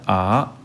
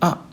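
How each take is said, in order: First: The pitch rises. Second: The syllable is said short and quick. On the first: "이성의 경우에는 아 이렇게 올라가고요" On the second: "사성의 경우에는 아 짧게 발음하면 사성에 가까워집니다"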